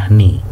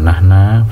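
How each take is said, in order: First: The word ends with an i vowel. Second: The word ends with an a vowel. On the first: "bukan nahni" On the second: "bukan nahna"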